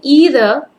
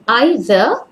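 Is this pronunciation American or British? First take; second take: American; British. First: It is said with an American pronunciation. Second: It is said with a British pronunciation. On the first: "that's the American pronunciation" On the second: "I prefer the British one"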